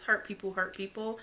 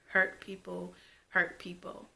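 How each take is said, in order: First: The phrase is spoken quickly. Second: The phrase is spoken slowly.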